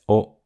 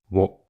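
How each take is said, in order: First: It is a plain o vowel with no w. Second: It begins with a w sound before o. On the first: This is the usual modern pronunciation. "This letter is often pronounced as O in modern Japanese" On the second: Only some people still pronounce it this way. "some people still pronounce it as wo"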